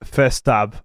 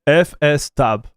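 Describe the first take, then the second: First: Only F is spelled out, then a word. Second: F and S are both spelled out as letters. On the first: The speaker calls it wrong. "not F stab" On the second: The speaker calls it right. "F S stab is how I say it"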